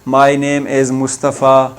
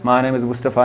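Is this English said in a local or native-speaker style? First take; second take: local; native. First: It is said in plain, careful local-style English. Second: It is said in flowing, native-speaker-style English. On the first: This is how a local school teacher speaks. "सादा सादा अंग्रेज़ी" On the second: This is how native English speakers talk. "अंग्रेज़ों को सुनते हैं, वो इस तरह बोलते हैं"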